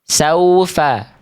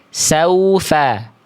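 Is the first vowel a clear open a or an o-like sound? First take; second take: clear a; clear a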